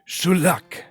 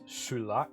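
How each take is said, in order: First: The word is shouted loudly in a put-on voice. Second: The word is said quietly in a plain voice.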